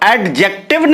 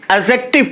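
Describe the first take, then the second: First: The d sound is clearly pronounced. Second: The d sound is left silent. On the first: The speaker calls it wrong. "हम इसको एडजेक्टिव नहीं पढ़ते हैं" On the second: The speaker calls it right. "इसमें डी silent है, ... बल्कि एडजेक्टिव पढ़ते हैं"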